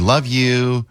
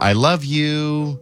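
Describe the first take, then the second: First: Said in the usual way. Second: Slow, sincere "I love you" with the I said fully; the full mushy version, stretched out; earnest, drawn "I love you". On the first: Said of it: "we always say". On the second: Shown as a demonstration. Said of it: "It's never".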